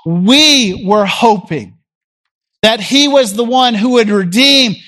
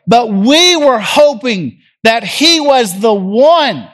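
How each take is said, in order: First: Slow, wistful we were hoping; slow mournful sigh of hope; sad longing. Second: Sad longing. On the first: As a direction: let the disappointment sink into it. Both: Acted. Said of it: "Can you hear the sadness in their voice?".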